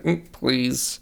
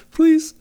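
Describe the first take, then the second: First: Softer, slightly high mock-backhanded plea. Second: Very high, squeaky imitated plea; mock Madison plea. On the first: Fan showing how he read Madison's line, backhanded. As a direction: hum first, then a snide imitated please. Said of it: "backhandedly be like". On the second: Fan acting Madison's reply to Jefferson, squeaky mock plea. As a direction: squeak it out as a put-on pleading voice. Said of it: "And then Madison's like".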